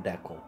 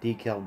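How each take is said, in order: First: DECAL as "DECK-ul"; decal said like "deckle"; short-E pronunciation. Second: DECAL as "DEE-kal"; long first E in decal; long-E pronunciation. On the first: Streamer listing both ways, decal as "DECK-ul". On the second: Streamer listing both ways, decal as "DEE-kal". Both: Shown as a demonstration. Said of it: "Is it pronounced decal or decal".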